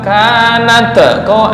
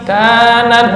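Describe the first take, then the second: First: The final 't' has an added echoing release. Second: The final 't' ends cleanly without extra sound. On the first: The speaker calls it wrong. "jangan kol-kolah, bukan kanat ko" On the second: The speaker calls it right. "Nah, oke"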